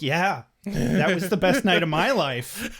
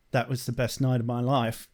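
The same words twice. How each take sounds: First: Drawn-out, lifted, relishing echo; enthusiastic agreement. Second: Put-on British accent, low and understated; Spike. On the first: Retold or imitated. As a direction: agree wholeheartedly, stretching the words with delight. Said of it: "And I'm like". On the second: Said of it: "doing the Spike accent".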